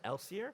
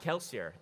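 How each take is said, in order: First: The name starts without a K sound. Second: The name starts with a K sound.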